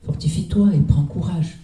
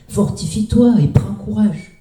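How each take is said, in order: First: It is said more softly. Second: It is said too loudly.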